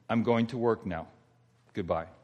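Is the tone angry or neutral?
neutral. It is said in a plain, neutral tone. A simple goodbye before leaving for work. "Those are the words"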